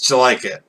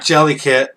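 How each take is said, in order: First: It is said like a quick 'did you like it'. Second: It is said like the words jelly kit. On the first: The speaker calls it right. "it's Jellikit. Because he says, "Did you like it?"" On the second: The speaker calls it wrong. "People mispronounce this all the time. It's not Jellykit"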